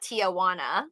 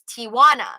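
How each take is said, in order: First: An extra 'uh' vowel is in the middle. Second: No extra vowel is in the middle. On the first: The speaker calls it wrong. "it's not Tijuana" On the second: The speaker calls it right. "There is no uh in the middle"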